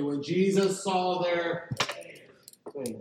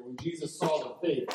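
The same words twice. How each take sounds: First: Slow and deliberate, Jesus stretched out for the congregation to say along; a preacher pacing the line so everyone can join in; slow call to repeat together. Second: Said in the usual way. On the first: Shown as a demonstration. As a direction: lead the room through it word by word, slowly. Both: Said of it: "say that with me".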